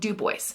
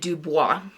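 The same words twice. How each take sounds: First: Dubois is said the way local people say it. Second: Dubois is said the way the narrator said it. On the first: This is how people who live there say it. The speaker calls it right. "I know how we say our towns. It is called Dubois" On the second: This is how an outsider says the town name. The speaker calls it wrong. "the audiobook narrator kept calling it Dubois"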